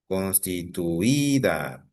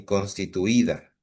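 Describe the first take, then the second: First: "Constituida" slowly stretched, stress on the Í before -da. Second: Said in the usual way. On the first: Shown as a demonstration. Teacher shows a palabra grave, "Constituida" slow with stressed Í. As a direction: sound out "Constituida" slowly, holding the Í. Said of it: "Es una palabra grave". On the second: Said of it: "el error está en constituida".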